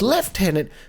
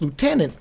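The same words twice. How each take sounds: First: The word is said the British way. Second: The word is said the American way. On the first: "for the British" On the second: "for Americans"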